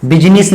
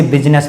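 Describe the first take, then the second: First: बिजनेस misread as bi-ji-nis, three syllables; wrong pronunciation. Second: बिजनेस said BIZ-nas, middle i dropped; two syllables, BIZ-nas, for बिजनेस; correct pronunciation. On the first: Teacher warns students off this reading, wrong pronunciation. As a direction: sound out an extra i in बिजनेस, bi-JI-nis. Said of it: "नहीं पढ़ते". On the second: Teacher gives students the right reading, correct pronunciation. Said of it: "इसे बिजनेस पढ़ते हैं". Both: Shown as a demonstration.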